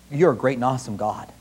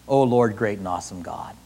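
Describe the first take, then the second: First: Said in the usual way. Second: Much softer, low reverent murmur; hushed reverence. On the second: Retold or imitated. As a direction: breathe it out in awe. Repeats prayer softer.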